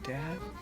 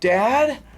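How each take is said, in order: First: It is said softly. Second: It is called out loudly.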